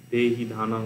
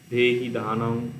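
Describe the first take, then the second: First: "দেহি ধানং" with the ধ breathed out as a clear aspirated dh; careful repeat of "দেহি ধানং" with an audible aspirated ধ. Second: Said in the usual way. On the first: Shown as a demonstration. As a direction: land on the aspirated ধ in "দেহি ধানং" to correct the first take. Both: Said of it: "মানে, সম্মা সম্বুদ্ধেহি".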